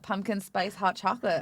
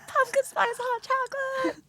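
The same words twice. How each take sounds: First: It is said at normal, quieter volume. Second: It is said loudly and with energy.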